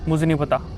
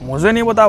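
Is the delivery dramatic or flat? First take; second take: flat; dramatic. First: It is said plainly, without expression. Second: It is said dramatically, with acted expression. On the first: The speaker calls it wrong. "जैसे कि आप बोलते हो" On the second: The speaker calls it right. "ऐसे आपको हर एक चीज़ को acting करके बताना है"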